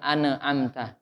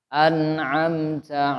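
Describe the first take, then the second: First: The word is said with a bouncing echo. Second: The word is said smoothly, without a bounce. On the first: The speaker calls it wrong. "jangan dipantul, bukan an'amta" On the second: The speaker calls it right. "jangan ditahan terlalu lama, langsung"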